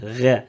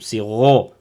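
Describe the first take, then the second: First: The sound is light and thin. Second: The sound is heavy and deep. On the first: The speaker calls it wrong. "beaucoup d'élèves qui ne le donnent pas vraiment ... sa prononciation grave" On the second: The speaker calls it right. "Non, c'est ro"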